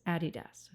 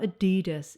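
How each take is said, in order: First: The name is pronounced the German way. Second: The name is pronounced the American way. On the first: The speaker calls it right. "it's Adidas. Okay, it's German. That's how they pronounce it" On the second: The speaker calls it wrong. "It's not Adidas"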